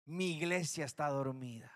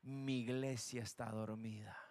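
First: Lower, solemn repeat of "Mi iglesia está dormida"; God sadly repeating the charge, lower in pitch. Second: Much lower and much softer, grave and solemn; God mourning his sleeping church, low and hushed. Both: Acted. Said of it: "la voz de Dios que dijo".

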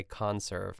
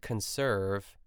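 First: "conserve" said con-SERVE, second syllable stressed; "conserve" with the weight on SERVE. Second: "conserve" said CON-serve, first syllable stressed; "conserve" with the weight on CON, slowly. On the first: Trying the other way for the cranberry dish, "conserve" as con-SERVE. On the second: Unsure of the word in the cranberry recipe, "conserve" stressed as CON-serve. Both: Shown as a demonstration. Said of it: "it's like the emphasis on the wrong syllable".

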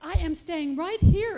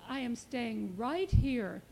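First: Put-on loud, higher-pitched baby digging in; stubborn baby refusing to budge; insistent. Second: Put-on slow, contented baby settling in; understated, satisfied declaration; smiling. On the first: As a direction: insist firmly, louder and higher. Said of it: "insisted baby". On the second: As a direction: say it slowly, with a smile. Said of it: "smiled baby". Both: A narrator's reading.

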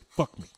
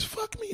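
First: Said in the usual way. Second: High, soft, breathy-free mock of her voice. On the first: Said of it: "That's the only two words you can fucking say". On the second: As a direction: squeak it out like he's mimicking her. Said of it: "Only thing you can say with your voice is".

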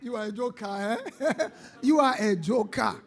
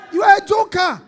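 First: Amused jeer through chuckles; laughing ridicule. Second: High, very loud jeer; shouted ridicule. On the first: Real, not acted. Preacher teases a surprised soldier as joker, laughing. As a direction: tease him between laughs. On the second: Acted. Preacher ridicules the unready soldier, high loud shout. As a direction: shout the taunt at full voice.

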